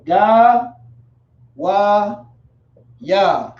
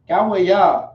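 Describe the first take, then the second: First: Ga Wa Ya one syllable at a time; Ga, Wa, Ya as separate, drawn-out beats; sounded out. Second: Said in the usual way. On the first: Shown as a demonstration. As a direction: stretch each syllable of Ga Wa Ya, pausing between. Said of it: "sounded out in the Hebrew". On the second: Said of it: "is how you would say nation".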